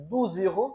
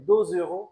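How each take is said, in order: First: "দুজ ইউরো" as douze euros, oo vowel; oo in "দুজ", not eu; French twelve euros. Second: "দুজ ইউরো" as deux euros, rounded eu; French two euros. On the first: Teacher showing how to say twelve euros, "দুজ" with oo. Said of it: "মানে হচ্ছে". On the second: Teacher showing how to say two euros, "দুজ" with eu. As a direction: eu vowel in "দুজ", z linking on. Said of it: "কিভাবে বলতে হয়". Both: Shown as a demonstration.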